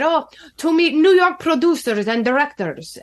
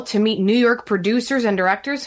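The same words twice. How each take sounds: First: Higher-pitched imitation Russian accent. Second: Said in the usual way. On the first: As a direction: put on his heavy Russian accent. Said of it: "had a very heavy Russian accent".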